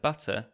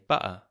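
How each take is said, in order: First: The middle consonant is a clear T sound. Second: The middle consonant is a glottal stop. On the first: "the T sound T" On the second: "can be replaced with a glottal stop"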